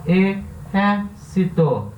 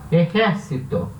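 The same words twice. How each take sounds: First: "Exército" slowly split as e, xér, ci, to; "Exército" stretched out, each syllable set apart. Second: Said in the usual way. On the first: Shown as a demonstration. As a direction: sound out "Exército" one syllable at a time. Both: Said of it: "É a terceira sílaba tônica".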